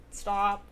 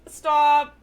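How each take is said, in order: First: Said in the usual way. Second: Sharp, loud stop; loud exclaimed stop. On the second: Real, not acted.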